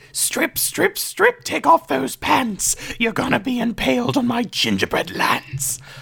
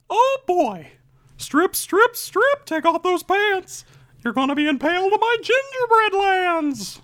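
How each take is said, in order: First: It is said in a demonic voice. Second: It is said in a Mickey Mouse voice.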